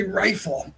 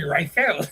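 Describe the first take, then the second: First: Rifle said American way, stress on RI. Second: Rifle said as ri-FEL, stress on second syllable; Filipino pronunciation. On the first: Streamer contrasting his own pronunciation, plain American. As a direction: say rifle with first syllable stressed. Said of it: "I would say rifle". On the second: Streamer imitating how Filipinos say it, stress moved. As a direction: put the weight on the end of rifle. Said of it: "They would say rifle". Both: Shown as a demonstration.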